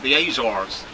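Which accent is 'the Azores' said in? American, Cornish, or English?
American. It is said in an American accent. "the Americans call it the Azores"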